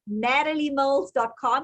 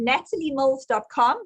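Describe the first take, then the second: First: It is said in an American accent. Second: It is said in a South African accent.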